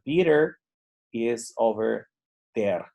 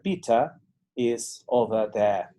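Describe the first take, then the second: First: It is said with a neutral accent. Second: It is said with a British accent. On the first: "Más neutral podría ser" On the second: "en británico"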